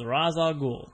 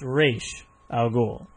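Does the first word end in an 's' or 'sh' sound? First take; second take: s; sh. First: The first word ends with an 's' sound. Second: The first word ends with an 'sh' sound. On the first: The speaker calls it wrong. "he told him that the correct pronunciation was Ra's al Ghul" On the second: The speaker calls it right. "It's Raish al Ghul"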